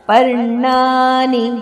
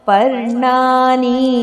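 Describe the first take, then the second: First: The vowel is kept short. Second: The vowel is drawn out long. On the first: The speaker calls it right. "ಅದು ಹ್ರಸ್ವಾಕ್ಷರ" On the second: The speaker calls it wrong. "ಅಲ್ಲ, ದೀರ್ಘ ಅಲ್ಲ"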